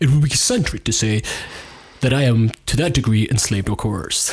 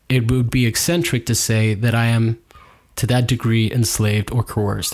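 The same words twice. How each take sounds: First: It is read in a put-on imitating voice. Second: It is read in the speaker's ordinary voice.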